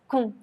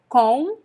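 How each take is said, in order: First: The vowel is reduced to a weak u. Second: The vowel is a clear o sound. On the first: "When I speak fast, I pronounce cum" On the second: "I don't pronounce com"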